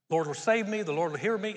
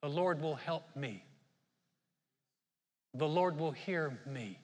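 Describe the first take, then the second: First: Bold, louder proclamation; confident declaration. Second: Hesitant. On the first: Preacher voicing David's confident faith to the church, bold declaration. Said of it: "listen for the tone behind it". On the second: Preacher showing how doubtful people mumble the words, hesitant. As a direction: say it as if you barely dare. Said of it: "People are hesitant to say those words". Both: Shown as a demonstration.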